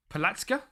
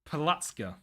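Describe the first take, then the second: First: Palatska rising high at the end; unsure, question tune on Palatska; questioning intonation. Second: Palatska falling at the end; settled intonation. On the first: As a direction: ask "Palatska?" with an upward lift. Testing the name as a question. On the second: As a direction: state "Palatska." as an answer. Settling on the name. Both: Shown as a demonstration.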